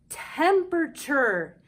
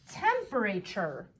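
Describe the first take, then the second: First: The vowels are relaxed into everyday natural sounds. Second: Each syllable keeps its plain spelled vowel sound. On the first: The speaker calls it right. "Sometimes we have to try different letter sounds to make a real word" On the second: The speaker calls it wrong. "Is that a real word? Not quite"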